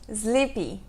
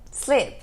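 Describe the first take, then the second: First: An extra vowel is added after the final consonant. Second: The word ends on the consonant with no vowel. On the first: The speaker calls it wrong. "Também não é sleepy" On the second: The speaker calls it right. "É sleep"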